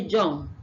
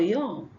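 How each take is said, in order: First: The word begins with a j sound. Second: The word begins with a y sound. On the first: The speaker calls it wrong. "people exchange it for j" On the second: The speaker calls it right. "We have ye and not j"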